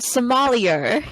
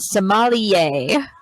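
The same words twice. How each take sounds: First: It is pronounced the English way. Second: It is pronounced the French way. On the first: The speaker calls it wrong. "sorry I pronounced it wrong at first" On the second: The speaker calls it right. "but it's French. It's a sommelier"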